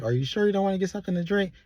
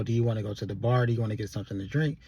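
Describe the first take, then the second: First: Higher, fast, wheedling ask; high coaxing plea. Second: Said in the usual way. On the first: Retold or imitated. Tipsy Sabrina urging Andy to drink, high and fast. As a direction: coax him sweetly and quickly.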